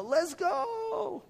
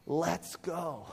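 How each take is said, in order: First: Rachel Chow's let's go. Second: Said in the usual way. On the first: Retold or imitated. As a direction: belt out "Let's go." like a hype shout. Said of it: "as Rachel Chow does". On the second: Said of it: "they do this".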